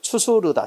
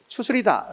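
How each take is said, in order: First: The third syllable is said with 'eu'. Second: The third syllable is said with 'i'. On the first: The speaker calls it right. "추수르다가 맞다는 걸 기억해 두라" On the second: The speaker calls it wrong. "이렇게 하는 경우가 있는데 잘못된 거야"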